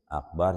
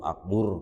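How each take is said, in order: First: The last syllable has an 'a' vowel. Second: The last syllable has a 'u' vowel. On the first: The speaker calls it right. "Akbar jadi akber" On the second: The speaker calls it wrong. "atau akbur gitu"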